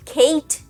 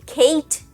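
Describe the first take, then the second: First: The vowel is an ay sound, like the letter A. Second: The vowel is an ay sound, like the letter A.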